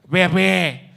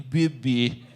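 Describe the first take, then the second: First: The final vowel is said open. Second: The final vowel is said closed. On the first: "quando nós abrimos" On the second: "vocês fecham só para chatear"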